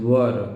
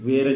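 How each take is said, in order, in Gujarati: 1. આ સ્વર 'fur' ના સ્વર જેવો સંભળાય છે. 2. આ સ્વર 'air' ના સ્વર જેવો સંભળાય છે. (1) "ધ રાઇટ પ્રોનાઉન્સિએશન ઇઝ વર" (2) "મને વેરની આદત પડી ગઈ હતી"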